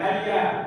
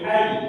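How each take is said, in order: First: The word ends with a short vowel sound. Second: The word ends on a bare consonant. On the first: The speaker calls it wrong. "jangan hayya" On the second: The speaker calls it right. "ketika waqaf dia berbunyi hai"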